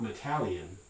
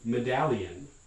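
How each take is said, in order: First: The middle consonant is a voiceless t. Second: The middle consonant is a voiced d. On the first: The speaker calls it wrong. "not metallion" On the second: The speaker calls it right. "underlyingly a voice stop"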